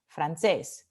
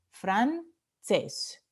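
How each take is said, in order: First: Said in the usual way. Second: "francés" split into fran, CÉS, stress on the last; syllable by syllable. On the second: Shown as a demonstration. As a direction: separate "francés" with a pause before CÉS. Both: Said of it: "Última sílaba".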